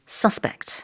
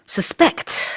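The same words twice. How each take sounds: First: The stress is on the first syllable. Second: The stress is on the second syllable. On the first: It is used as a noun. "그래서 용의자는 suspect" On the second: It is used as a verb. "강세가 뒤에 있을 때는 동사입니다"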